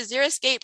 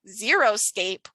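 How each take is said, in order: First: The vowel after the r is 'ih'. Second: The vowel after the r is 'oh'. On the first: It names a colorful, water-wise landscape. The speaker calls it right. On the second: It suggests a landscape with no plants. The speaker calls it wrong.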